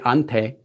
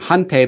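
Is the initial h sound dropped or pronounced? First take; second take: dropped; pronounced. First: The word begins without any h sound. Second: The word begins with a clear h sound. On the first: This is the casual spoken form. "they say ante in casual conversation" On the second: This is the careful form. "I'm saying hante"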